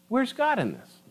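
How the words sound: It sounds calm and genuinely curious.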